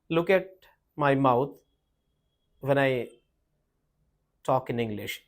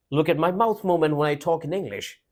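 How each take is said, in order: First: Halting, fading delivery with a barely moving mouth; little mouth movement. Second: Brisk English with the mouth moving properly; full mouth movement. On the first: Teacher shows the same sentence without proper mouth movement, barely articulated. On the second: Teacher models a sentence with mouth movement, properly articulated. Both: Shown as a demonstration. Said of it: "I didn't have the mouth movement properly".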